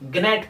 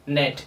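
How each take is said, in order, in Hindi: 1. शब्द "g" ध्वनि से शुरू होता है। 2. शब्द "n" ध्वनि से शुरू होता है। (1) "साइलेंट वर्ड नहीं पता होगा उसे ग्नेट पढ़ेगा" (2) "लेकिन इसे पढ़ा जाएगा नेट"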